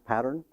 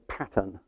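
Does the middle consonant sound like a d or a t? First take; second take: d; t. First: The middle consonant sounds like a d. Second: The middle consonant is a clear t sound. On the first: "if I say it with two D's" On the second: "What I have to say pattern"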